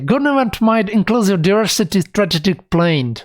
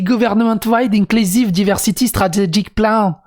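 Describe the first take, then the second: First: It is said with a put-on English accent. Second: It is said with a strong French accent. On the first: "c'est facile d'avoir un accent anglais" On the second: "il parle qu'avec un accent français"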